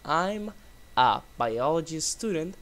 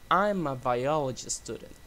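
First: The words are said separately, without linking. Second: The words are linked smoothly together. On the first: "Instead of saying" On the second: "they say"

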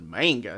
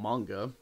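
First: The word has an older Americanized pronunciation. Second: The word has a Japanese-style pronunciation. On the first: This is how it was said before people knew better. The speaker calls it wrong. "Then we called it manga" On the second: This is the proper way to say it. The speaker calls it right. "not manga, because we didn't really know the pronunciation of the word"

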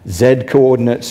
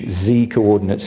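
First: The letter is said the British way. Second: The letter is said the American way.

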